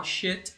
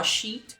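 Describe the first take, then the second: First: "shit" with an open eh, like "shet"; the mistaken "shit", vowel short and open. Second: "sheet" with a long ee, ending raised. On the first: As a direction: contrast "shit" without the long ee. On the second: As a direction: contrast "sheet" with a clear long i. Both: Shown as a demonstration. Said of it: "um sonzinho dá uma diferença enorme".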